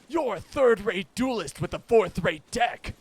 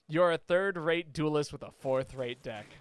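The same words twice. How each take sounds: First: It is said in a put-on character voice. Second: It is said in the speaker's ordinary voice.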